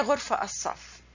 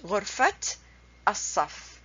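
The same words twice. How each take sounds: First: غرفة said "ghurfa" without t, run into الصف; wrong pronunciation, t dropped. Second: غرفة said "ghurfat", final t released before الصف; correct linked pronunciation. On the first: Teacher warns against the mistake, غرفة pronounced "ghurfa". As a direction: drop the final t of غرفة before الصف. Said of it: "You don't say". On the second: Teacher shows how to pronounce it, غرفة pronounced "ghurfat". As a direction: sound the t ending of غرفة, brief pause, الصف. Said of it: "The way you pronounce it". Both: Shown as a demonstration.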